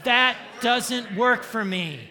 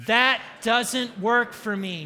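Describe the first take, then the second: First: Loud slow shout, standing your ground; mean and firm. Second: Half-hearted stand; firm but without real bite; weak firm line. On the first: Preacher demands meanness from the congregation, loud firm shout. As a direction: bark it with ferocity. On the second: Preacher models a limp refusal, half-hearted. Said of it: "No, that is pathetic". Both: Shown as a demonstration.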